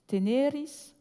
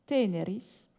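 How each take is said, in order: First: Teneris stressed on the middle syllable, te-NE-ris, raised; stress demo. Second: Teneris stressed on the first syllable, TE-ne-ris; stress demo. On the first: Lecturer contrasting Latin stress for her audience, te-NE-ris. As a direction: say "teneris" with the accent on NE. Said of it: "tu es tenu". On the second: Lecturer contrasting Latin stress for her audience, TE-ne-ris. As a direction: say "teneris" with the accent on TE. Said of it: "au tendre". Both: Shown as a demonstration.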